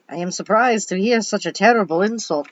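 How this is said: It is said in a put-on Transylvanian accent.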